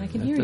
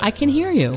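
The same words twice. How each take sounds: First: The voice sounds hesitant and unsure. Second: The voice sounds firm and confident. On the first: The speaker calls it wrong. "That doesn't sound very confident" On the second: The speaker calls it right.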